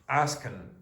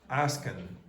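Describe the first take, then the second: First: The word ends with a short n sound. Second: The word ends with a short n sound.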